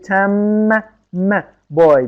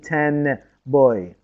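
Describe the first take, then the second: First: Ten ends with an m sound. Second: Ten ends with an n sound. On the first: The speaker calls it right. "قلبه به میم" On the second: The speaker calls it wrong. "نمیگیم"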